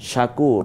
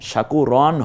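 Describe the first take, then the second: First: The word ends on a bare r sound. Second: The word ends with an added un sound. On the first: The speaker calls it right. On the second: The speaker calls it wrong.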